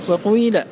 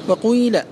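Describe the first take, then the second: The two takes are said the same way.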